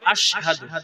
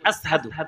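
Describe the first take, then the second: First: The consonant before 'hadu' is an sh sound. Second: The consonant before 'hadu' is a plain s sound. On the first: The speaker calls it right. "বড় শিন, কি হবে?" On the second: The speaker calls it wrong. "ওখানে কিন্তু আস বলছে"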